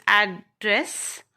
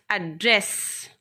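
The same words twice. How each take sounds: First: Noun address: hit AD, let dress fall away; ADdress, the noun, stressed up front; stress on first syllable. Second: Verb address: weak a, then punch dress; aDDRESS, the verb, stress at the end; stress on second syllable. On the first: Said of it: "the first syllable is pressed". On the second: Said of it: "The second syllable is pressurized". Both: Shown as a demonstration.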